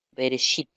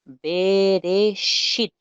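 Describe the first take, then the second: First: Said in the usual way. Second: "Bereshit" drawn out very slowly and higher, be-re-SHIT, each syllable held; teacher models "Bereshit" slowly for students; slow model pronunciation. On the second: Shown as a demonstration. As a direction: stretch "Bereshit" syllable by syllable for learners. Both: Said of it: "lo leeríamos de la siguiente forma".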